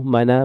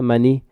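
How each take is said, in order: First: The word ends with an added a vowel. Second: The word ends with an added i vowel.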